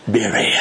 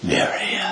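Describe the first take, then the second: First: Said in the usual way. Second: Mary said lower and softer, lovingly; tender, soft call. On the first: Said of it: "by just the way he said her name". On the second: Shown as a demonstration. Jesus gently speaks Mary's name at the tomb, tender and soft. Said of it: "the way he said her name".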